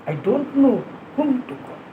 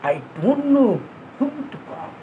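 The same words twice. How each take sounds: No difference in how they are said.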